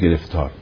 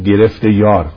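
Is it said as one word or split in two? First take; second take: one word; split. First: It is said as one joined word. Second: It is split into two parts with a y sound. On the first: One is trapped in trouble. The speaker calls it wrong. "نگید گرفتار" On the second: One has grabbed hold of the beloved. The speaker calls it right.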